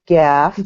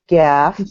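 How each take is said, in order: First: The vowel is a short 'a', like gaff. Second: The same.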